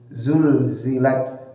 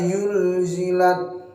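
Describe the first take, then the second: First: The word begins with a z sound. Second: The word begins with a y sound. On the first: The speaker calls it right. "mirip huruf Z" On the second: The speaker calls it wrong. "jangan sampai dirubah menjadi huruf ya"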